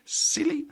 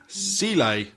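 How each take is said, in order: First: Silly? pitched up high as a question; Silly? asked high and soft, rising; high questioning name. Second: Sile with a settled falling tune; trying a pronunciation. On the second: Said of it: "I like that one better". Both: Shown as a demonstration.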